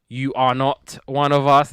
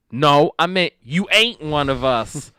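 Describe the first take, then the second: First: Lightly mocked correction, "you are not" fully spelled out; pointed correction. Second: Slow, higher retort leaning on "ain't"; emphatic retort. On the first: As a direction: say "are not" as two careful separate words. Sydney corrects the girl's grammar. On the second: Retold or imitated. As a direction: insist on "ain't", drawn out and raised. Girl insists on her slang wording.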